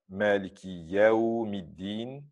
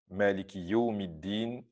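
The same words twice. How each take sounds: First: The contested vowel is an open 'a' sound. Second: The contested vowel is a rounded 'u' sound. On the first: The speaker calls it right. "c'est la lecture qui est correcte" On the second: The speaker calls it wrong. "c'est la lecture qui n'est pas correcte"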